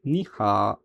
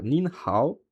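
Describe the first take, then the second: First: "ni ha" without the final O; as really pronounced. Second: "nin hao" with N and final O sounded; as written. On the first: Teacher gives the real pronunciation, "ni ha" with the O dropped. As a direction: end "ni ha" on a long open A. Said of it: "on va le prononcer ni ha". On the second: Teacher reads out the spelling, "nin hao" pronounced as written. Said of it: "mais en vrai, on va le prononcer". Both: Shown as a demonstration.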